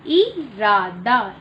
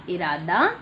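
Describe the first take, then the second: First: Put-on teacher models इरादा slowly for the children; slow drawn-out model. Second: Said in the usual way. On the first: Shown as a demonstration. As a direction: draw इरादा out slowly, every syllable clear. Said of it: "slow model". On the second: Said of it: "normal take".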